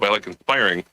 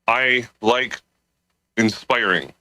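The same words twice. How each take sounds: First: The phrase is spoken quickly and run together. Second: The phrase is spoken at a normal speed.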